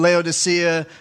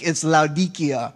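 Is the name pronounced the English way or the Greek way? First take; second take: English; Greek. First: The name is said with its English pronunciation. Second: The name is said with its Greek pronunciation. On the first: "English transliteration" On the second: "in the Greek"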